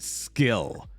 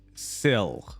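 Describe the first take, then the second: First: The name begins with an sk sound. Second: The name begins with a plain s sound. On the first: The speaker calls it wrong. "people always pronounced it skill, which makes no sense to me" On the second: The speaker calls it right. "my last name is starts with an S C I like this"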